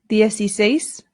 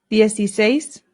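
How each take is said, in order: Both takes have the same delivery.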